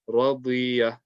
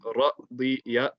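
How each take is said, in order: First: It is said smoothly without pauses. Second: It is said with pauses between syllables.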